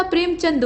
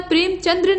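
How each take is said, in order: First: प्रेमचंद ending "chand"; correct form. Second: प्रेमचंद्र ending "chandra"; wrong form. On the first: Teacher correcting the name, प्रेमचंद ending in d. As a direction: say प्रेमचंद with no final r. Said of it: "प्रेमचंद होता है". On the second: Teacher showing the mistake, प्रेमचंद्र ending in dra. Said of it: "नहीं होता". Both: Shown as a demonstration.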